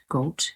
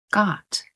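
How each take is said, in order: First: Goat mit langem gleitendem O; wrong long O. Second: Got mit offenem kurzem ah; correct soft O. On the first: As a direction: goat mit oh-Laut, als Fehler. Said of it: "you don't say goat". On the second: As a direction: got wie gaht, offen. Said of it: "you say got". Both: Shown as a demonstration.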